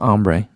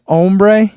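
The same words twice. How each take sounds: First: "ombre" with an open AH first vowel; open-AH pronunciation. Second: "Ombre" with a round OH first vowel, higher and louder; long-O pronunciation. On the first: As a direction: say "ombre" starting AHM, as AHM-bray. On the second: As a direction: say "Ombre" starting OHM, as OHM-bray. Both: Shown as a demonstration. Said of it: "not ombre".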